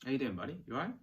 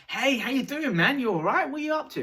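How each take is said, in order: First: Softer, easy greeting that mirrors them; calm matching greeting. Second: Loud, much higher, over-the-top hello; overeager greeting. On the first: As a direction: greet them gently at their level. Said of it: "sit next to them ... cross your hands". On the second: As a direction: bound up to a stranger all hyped. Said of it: "run up to them and say". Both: Shown as a demonstration.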